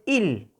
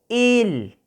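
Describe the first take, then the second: First: The vowel is short and plain. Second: The vowel is drawn out long. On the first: The speaker calls it wrong. "No es il" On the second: The speaker calls it right. "Se prolonga el sonido de la letra I"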